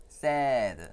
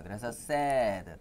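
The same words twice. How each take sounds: First: Said in the usual way. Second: Sad said very slowly with a clear ae vowel; slow teacher model of sad; model pronunciation. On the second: Shown as a demonstration. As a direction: stretch out sad slowly for children to copy. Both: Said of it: "따라해보세요".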